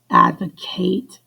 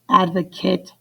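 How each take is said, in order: First: It is pronounced as the verb form. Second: It is pronounced as the noun form. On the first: It names the action of supporting something. "advocate action" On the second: It names a person who supports something. "advocate person"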